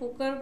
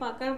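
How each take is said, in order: First: The first vowel sounds like a rounded 'o'. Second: The first vowel sounds like an open 'a'. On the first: "অনেকে পোকার বলে" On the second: "অনেকে পাকার বলে"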